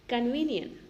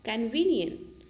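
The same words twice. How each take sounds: The two takes are said the same way.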